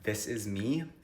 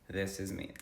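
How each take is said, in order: First: The voice is clear without vocal fry. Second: The voice is creaky with vocal fry. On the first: "without vocal fry" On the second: "this is me normal, like with vocal fry"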